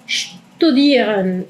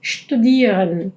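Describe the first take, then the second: First: "studieren" slow, st as sht; German st. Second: "studieren" slow with shtu-; German st; correct studieren. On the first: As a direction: say "studieren" with shtu. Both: Shown as a demonstration. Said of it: "no es studieren".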